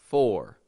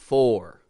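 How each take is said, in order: First: The vowel is full and clear. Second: The same.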